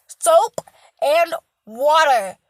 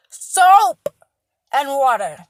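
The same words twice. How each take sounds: First: SOAP punched out loud, and water slowed; stressed soap. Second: Soap belted out much louder, and water dropped back; stressed harder. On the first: Urging viewers to wash: Soap punched loud. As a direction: lean hard on Soap, then drag and water. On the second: Repeating the hygiene lecture: Soap almost shouted. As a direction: hammer the word Soap even harder. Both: Real, not acted. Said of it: "I have to stress this soap part".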